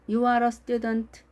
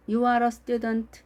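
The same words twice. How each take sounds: First: The pitch stays level across the sentence. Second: The same.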